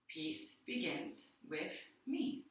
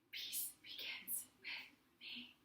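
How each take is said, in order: First: It is spoken in a full normal voice. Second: It is spoken in a whisper.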